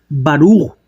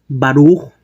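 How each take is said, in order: The two takes are said the same way.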